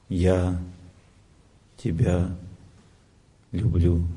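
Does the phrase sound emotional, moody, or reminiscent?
reminiscent. It is said softly, as if remembering. The feeling is expressed as a memory of love. "Человек вспомнит, вспоминает свою любовь"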